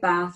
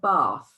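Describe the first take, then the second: First: It has a short northern 'a' vowel. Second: It has a long southern 'ah' vowel.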